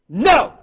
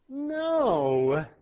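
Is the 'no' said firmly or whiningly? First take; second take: firmly; whiningly. First: The word is said firmly and sharply. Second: The word is said in a whiny, pleading way. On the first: The child must stop right away. The speaker calls it right. "when Mom said" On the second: The child can ignore it. The speaker calls it wrong. "Now I hear moms whining"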